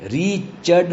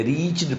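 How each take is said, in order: First: ریچڈ split as "ree-ched"; REACHED with E sounded. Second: ریچڈ as one syllable, "reechd"; REACHED with silent E. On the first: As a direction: say ریچڈ in two syllables, vowel before D. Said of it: "نہیں پڑھتے". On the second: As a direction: say ریچڈ with no vowel before D. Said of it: "پڑھتے ہیں". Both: Shown as a demonstration.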